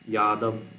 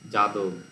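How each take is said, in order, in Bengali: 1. শব্দটি 'y' ধ্বনি দিয়ে শুরু হয়। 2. শব্দটি 'j' ধ্বনি দিয়ে শুরু হয়। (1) "এইরকম যাদব এরকম উচ্চারণ করে" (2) "জ বর্গীর জ উচ্চারণ হচ্ছে"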